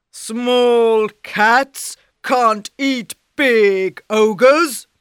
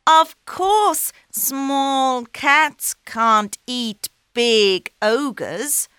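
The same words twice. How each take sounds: First: Loud, slow ogre scoff. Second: High, slow and coaxing; sly cat. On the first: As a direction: boom it with contempt. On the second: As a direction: agree slyly to trap him. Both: Acted.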